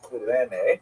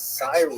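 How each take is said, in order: First: The name is said in the Greek way. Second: The name is said in the English way. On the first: "in Greek, it would have been something like Kurene" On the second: "I've heard it pronounced as Cyrene English"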